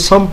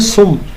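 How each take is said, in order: First: The word is said with an a vowel. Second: The word is said with a u vowel. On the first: The speaker calls it wrong. "कोई सम पढ़ रहा होता है" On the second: The speaker calls it right. "ये लफ्ज़ है असल में सुम"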